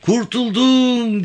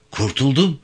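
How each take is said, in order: First: Very high, long drawn-out cry of relief; slow, soaring yell of deliverance; jubilant shout. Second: First cry of relief, raised pitch; higher-pitched exclamation, not yet a full shout; exclaiming. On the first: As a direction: shout it to the skies, stretching the last vowel. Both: A narrator's reading. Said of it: "diye kollarını kaldırarak bağırmaya".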